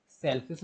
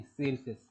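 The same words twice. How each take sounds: First: सेलफिश with a short e, like English "selfish"; short-vowel "selfish" version of सेलफिश; wrong pronunciation shown. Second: सेलफिश with a long first vowel, "sail-fish"; सेलफिश as sail plus fish, long vowel; corrected pronunciation. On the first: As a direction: say सेलफिश as "SELL-fis", clipping the first vowel short. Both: Shown as a demonstration. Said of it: "सेलफिश नहीं".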